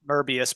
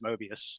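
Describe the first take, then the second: First: The first syllable sounds like 'mer'. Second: The first syllable sounds like 'moe'. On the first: This is how the man's own name was said. "It could be pronounced Merbius" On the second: This is how most people say it. "everyone says Mobius"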